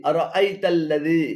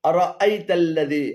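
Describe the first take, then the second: The two takes are said the same way.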